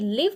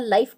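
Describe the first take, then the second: First: The vowel sounds like the 'i' in 'give'. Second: The vowel sounds like the 'i' in 'five'. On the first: It means to reside somewhere. "लिव माना रहना" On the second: It refers to a live broadcast. "लाइव माना लाइव telecast"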